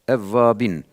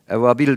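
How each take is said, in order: First: The word ends with an n sound. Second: The word ends with an l sound. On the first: The speaker calls it right. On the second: The speaker calls it wrong. "evabil değil"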